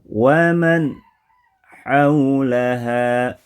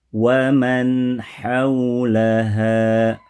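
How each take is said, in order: First: A pause breaks the phrase after the nasal. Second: The phrase flows evenly without stretching or breaks. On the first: The speaker calls it wrong. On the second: The speaker calls it right.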